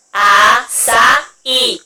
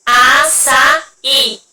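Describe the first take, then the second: First: "açaí" very slow, with the final "í" long and stressed; drawn-out stress demo. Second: Said in the usual way. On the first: Shown as a demonstration. Teacher to class showing the acute on the I, very slow. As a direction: stretch the last syllable of "açaí". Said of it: "O som do I é acento agudo". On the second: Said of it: "Ó, açaí".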